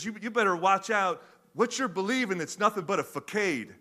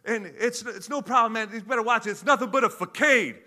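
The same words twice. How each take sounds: First: First casual pass at the movie line. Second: Higher and louder retake of the line. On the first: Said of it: "he says". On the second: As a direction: punch it up, a hammed-up second take. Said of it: "you wanna read that again?". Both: Retold or imitated.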